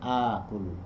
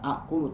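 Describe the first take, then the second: First: The first vowel is lengthened to two counts. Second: Two glottal stops collide abruptly at the start. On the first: The speaker calls it right. "tapi akulu" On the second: The speaker calls it wrong. "Bukan akulu"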